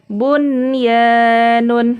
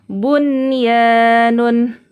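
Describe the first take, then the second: No difference in how they are said.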